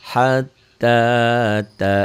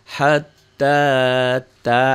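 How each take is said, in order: Both takes have the same delivery.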